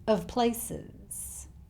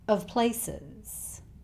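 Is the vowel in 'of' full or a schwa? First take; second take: schwa; schwa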